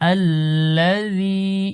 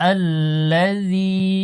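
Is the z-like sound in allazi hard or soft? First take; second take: soft; soft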